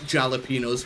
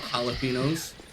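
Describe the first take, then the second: First: The word begins with a J sound. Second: The word begins with an H sound. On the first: The speaker calls it wrong. "not jalapenos" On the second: The speaker calls it right. "J is pronounced like H instead"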